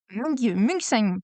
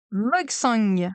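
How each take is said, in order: First: Mugsang said slowly, Mug split off first, then the whole; sounding out the name. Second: Said in the usual way. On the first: Shown as a demonstration. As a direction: spell out Mugsang syllable by syllable, slow.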